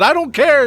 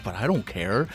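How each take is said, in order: First: Much higher, louder defiant shout; loud, high indignant outburst; shouted dismissal. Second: Much softer, lower flat dismissal; quiet, low brush-off; dismissive mutter. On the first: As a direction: yell it out in defiance. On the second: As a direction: shrug it off quietly. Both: Real, not acted. Dismissive repeated refrain.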